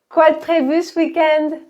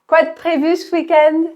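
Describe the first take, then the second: No difference in how they are said.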